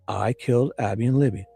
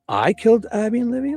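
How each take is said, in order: First: It is said as a flat, literal statement. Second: It is said in a doubtful, sarcastic tone. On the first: The speaker is admitting the act. "he literally says" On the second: The speaker is mocking the accusation, not admitting it. "like like in doubt, like like as if he didn't, in you know, with a sarcastic tone"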